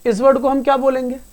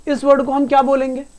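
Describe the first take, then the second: No difference in how they are said.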